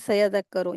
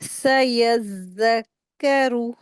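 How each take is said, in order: First: The doubled consonants are weakened and not held. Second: The doubled consonants are held clearly and carefully. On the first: The speaker calls it wrong. "ज्यादातर लोग यहीं पे गलती करते हैं, वो पढ़ते हैं" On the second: The speaker calls it right. "इस तरीके से उसको रीडिंग करेंगे"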